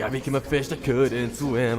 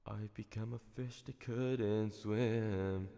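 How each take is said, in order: First: It is said in an angry tone. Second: It is said in a sad, depressed tone.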